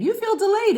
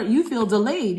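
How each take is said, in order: First: "You feel delayed" jumped far higher and louder, stress on "delayed"; squeaky emphasis. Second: Said in the usual way. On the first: Shown as a demonstration. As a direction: repeat it in a sudden high squeal.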